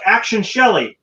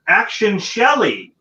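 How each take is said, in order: First: Higher, louder call of action; mock director's call. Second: Higher, louder call of action; repeated director's call. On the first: The director calling the actress out the door, mildly imitated call. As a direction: call it like an impatient director on set. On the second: Retold or imitated. The director calling the actress a second time, mildly imitated call. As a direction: call it again, losing patience. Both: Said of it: "he's like".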